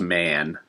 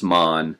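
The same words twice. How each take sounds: First: "man" as the everyday English word; pronounced "man". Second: "mon" with a rounded open vowel, not as "man"; pronounced "mon". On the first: Contrasting it for viewers, "man" with English short a. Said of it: "as opposed to man". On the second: Explaining the Japanese word to viewers, "mon" with an open vowel. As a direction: say "mon", vowel like the start of "Monday". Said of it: "but pronounced mon". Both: Shown as a demonstration.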